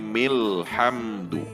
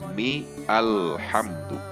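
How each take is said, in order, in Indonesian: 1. Kata-katanya menyambung tanpa vokal 'a'. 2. Vokal 'a' yang terpisah dibunyikan sebelum 'lhamdu'. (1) "Ketika diwasol dibaca milhamdu" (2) "bukan mi alhamdu"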